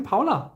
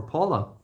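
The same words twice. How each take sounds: First: Paula with "ow" in the first syllable, POW-la; German-style Paula. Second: Paula with "aw" in the first syllable, PAW-la; English-style Paula. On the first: Streamer greeting a viewer by name, Paula said as POW-la. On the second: Streamer offering another pronunciation, Paula said as PAW-la. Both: Shown as a demonstration. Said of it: "depending on how you wanna pronounce it".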